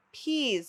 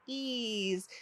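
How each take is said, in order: First: Said in the usual way. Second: PEAS broken into p, then eez, softer; sounded out. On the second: Shown as a demonstration. Teacher models long E in peas, sounded out. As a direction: split "Peas" after the first sound. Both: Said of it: "Say it with me".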